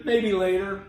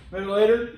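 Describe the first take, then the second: First: "Maybe later" with every syllable sounded; articulated form. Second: "Maybe later" quick, syllables swallowed; slurred shorthand. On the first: Teacher showing the full reply, articulated. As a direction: give "Maybe" both full syllables, evenly. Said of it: "Instead of saying". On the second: Teacher showing the shortened reply, slurred shorthand. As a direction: run "Maybe later" together as one word. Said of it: "we can shorten things". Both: Shown as a demonstration.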